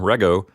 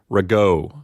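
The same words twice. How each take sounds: First: The stress is on the first syllable. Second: The stress is on the last syllable. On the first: The speaker calls it right. "The accent is going to go on the first syllable" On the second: The speaker calls it wrong. "You would never say rego"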